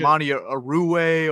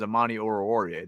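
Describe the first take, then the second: First: The name is said as Monty Arue. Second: The name is said as Amani Oruwariye. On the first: The speaker calls it wrong. "We thought it was like Monty Arue or something like that" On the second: The speaker calls it right. "the real way now is"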